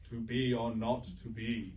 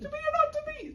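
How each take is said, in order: First: It is said in a very deep voice. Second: It is said in a high-pitched voice.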